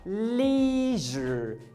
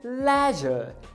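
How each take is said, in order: First: It is said with an American pronunciation. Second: It is said with a British pronunciation. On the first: "No americano é leisure" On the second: "E já no britânico, leisure"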